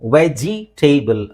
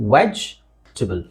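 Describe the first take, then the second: First: A vowel is sounded after the j. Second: No vowel is sounded after the j. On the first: The speaker calls it wrong. "ವೆಜಿ ಟೇಬಲ್ ಅಲ್ಲ" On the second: The speaker calls it right. "ಇ silent"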